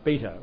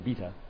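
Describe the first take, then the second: First: It is said with an American accent. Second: It is said with a British accent.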